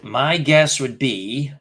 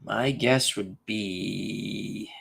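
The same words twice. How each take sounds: First: Drawn-out, slow thinking aloud; slow stalling. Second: Much slower and softer, trailing into thought; very slow soft musing. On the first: Stalling on the trivia question, slow drawn-out musing. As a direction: stretch each word while you think. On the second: Still stuck on the trivia answer, soft and very slow. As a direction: murmur it slowly, lost in thought. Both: Real, not acted.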